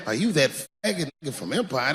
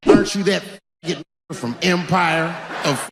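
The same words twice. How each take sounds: First: Soft, flat and blunt; just say it straight, how he would; blunt street version. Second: Prim hesitant voice. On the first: Shown as a demonstration. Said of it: "They would never say that". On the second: Retold or imitated.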